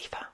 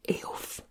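First: The name is said in its Irish way. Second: The name is read out following its spelling. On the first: The speaker calls it right. "But it's Aoife and it's lovely" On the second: The speaker calls it wrong. "That looks like Aoife"

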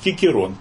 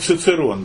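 First: The name begins with a k sound. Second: The name begins with a ts sound. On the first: This is how a strict Latinist reads it. "Если вы будете такого упорного латиниста слушать, он будет говорить Кикерон" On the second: This is the usual reading. "Обычно мы читаем Цицерон"

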